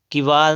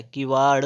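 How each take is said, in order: First: "किवाड़" ending in plain r; wrong final r. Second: "किवाड़" slow, ending in retroflex ṛ; correct final flap. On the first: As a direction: say "किवाड़" as kivaar. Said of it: "किवाड़ नहीं होता है". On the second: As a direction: draw "किवाड़" out to a curled ṛ. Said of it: "किवाड़ होता है". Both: Shown as a demonstration.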